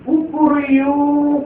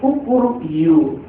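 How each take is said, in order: First: The crow sound is drawn out long. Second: The crow sound is short and clipped. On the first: It is a village chicken. "kukuruyuknya lebih panjang" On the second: It is a city chicken. "udah gaul di kota"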